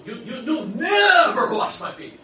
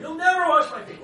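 First: Loud, slow stammering outburst; Peter protesting. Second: Very high, loud, stress on never; Peter's outcry. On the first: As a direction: plead loudly, tripping over the you. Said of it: "and he goes". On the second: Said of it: "Speak first, think later". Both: Acted.

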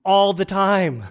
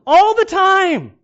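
First: Said in the usual way. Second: High, loud, slow laughing admission; laughing confession. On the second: Real, not acted. Pastor admits his own phone use to the church, laughing. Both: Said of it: "how often I use my cell phone".

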